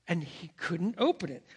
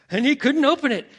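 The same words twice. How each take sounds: First: Said in the usual way. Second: Loud, high-pitched retold panic; rising panic. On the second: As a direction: repeat it louder, alarm taking over. Storyteller repeats line, building to panic.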